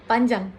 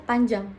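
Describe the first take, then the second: The two takes are said the same way.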